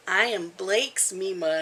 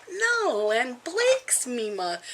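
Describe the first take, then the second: First: Said in the usual way. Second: High, slow sing-song protest; playful insistence. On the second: Retold or imitated. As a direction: tease the toddler, drawn out. Grandma playfully insists back to grandson.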